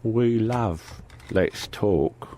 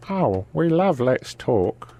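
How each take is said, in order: First: Very slow, soft mock English voice; put-on English accent. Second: Slow mock regional English voice; put-on English accent. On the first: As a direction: draw it out in the silly accent. The same mock voice repeated. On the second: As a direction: stretch it out in the silly accent. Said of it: "You have to do it in that voice".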